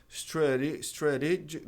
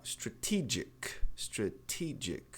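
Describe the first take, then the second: First: "strategic" with the stressed T turned into a tapped R; wrong flapped T. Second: "strategic" with a firm T opening the stressed "te"; stressed true T. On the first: Teacher showing it cannot be pronounced, wrongly flapped T. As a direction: stumble into a tap in "strategic". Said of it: "tentar transformar esse T em re". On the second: Teacher warning not to alter stressed syllable, true T. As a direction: keep the T crisp in "strategic". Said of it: "não mexa nela". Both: Shown as a demonstration.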